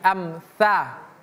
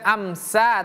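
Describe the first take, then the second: First: The middle consonant is a soft 'th' sound. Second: The middle consonant is a plain 's' sound. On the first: The speaker calls it right. "tapi amsa" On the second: The speaker calls it wrong. "bukan amsa"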